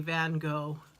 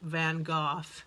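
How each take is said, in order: First: It is said the American English way. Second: It is said the British English way.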